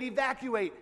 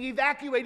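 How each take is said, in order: First: Said in the usual way. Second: Calling out the order to evacuate, raised; urgent order. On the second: Acted. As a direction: officials warning a town about the flood, urgent call. Officials ordering flood evacuation.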